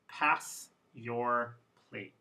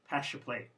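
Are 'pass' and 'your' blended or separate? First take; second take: separate; blended. First: The s and y sounds stay separate. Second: The s and y blend into sh. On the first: It is a formal way of speaking. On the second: It is a casual way of speaking. "Informal, they mix to become a sh sound"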